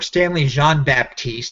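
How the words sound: The name is pronounced the French way.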